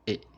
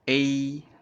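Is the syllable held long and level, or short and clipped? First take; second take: short; long. First: The syllable is short, light and cut off quickly. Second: The syllable is held long at a level pitch. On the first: "How to pronounce light tone? ... Short A A and end it quickly" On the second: "That's the first tone"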